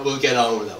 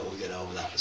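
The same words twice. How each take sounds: First: Louder, breezy laughing reassurance. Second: Softer, lower rueful repeat; quiet afterthought. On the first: Poet joking to the audience about the fight, laughing. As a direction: shrug it off with a laugh. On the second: Poet repeating it to himself, quiet and rueful. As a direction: say it again under your breath, half to yourself. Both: Real, not acted.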